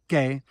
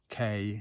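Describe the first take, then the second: First: The E vowel sounds Spanish-like. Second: The E vowel sounds English-like. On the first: The speaker calls it right. "instead of" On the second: The speaker calls it wrong. "I used to have real problems saying the E"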